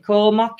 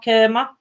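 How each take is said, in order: First: "Korma" with an "or" vowel; "Korma", first syllable like "core"; korma pronunciation. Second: "kurma" with an "er" vowel; "kurma", first syllable like "cur"; kurma pronunciation. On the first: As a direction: say "Korma" as KOR-ma. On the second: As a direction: say "kurma" as KER-ma, questioning. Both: Shown as a demonstration. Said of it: "How do you pronounce it?".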